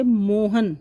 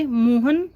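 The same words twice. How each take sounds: First: Mohan said slowly, मोह pressed hard and हन clipped fast; stress on मोह. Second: Mohan said slowly with the weight on मोह and हन quick; stress on मोह. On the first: Teacher demonstrating बलाघात to students, Mohan with मोह stressed. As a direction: push मोह in Mohan and rush the हन. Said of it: "हन है वो जल्दी बोला जा रहा है". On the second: Teacher showing students the word stress, Mohan with मोह stressed. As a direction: lean on मोह in Mohan and slide through हन. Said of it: "मोह पर बल". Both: Shown as a demonstration.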